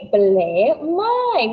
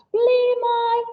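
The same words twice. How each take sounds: First: "Ble mai" said slowly in Welsh, falling on mai; Welsh phrase. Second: "Ble mai" asked high, stress on Ble; Welsh question. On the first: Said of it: "Our phrase of the week this week is". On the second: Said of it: "See if you can ask". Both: Shown as a demonstration.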